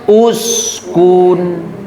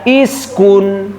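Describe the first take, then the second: First: The word begins with an u vowel. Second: The word begins with an i vowel. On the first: The speaker calls it right. "dibacanya uskun" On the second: The speaker calls it wrong. "jangan dibaca iskun"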